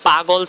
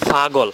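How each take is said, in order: First: The word begins with a p sound. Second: The word begins with an f sound. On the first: This is the standard form of the word. "মূল শব্দটা হচ্ছে পাগল" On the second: This is how regional speakers say it. "Chandpur এবং নোয়াখালী এই অঞ্চলের মানুষ বলে"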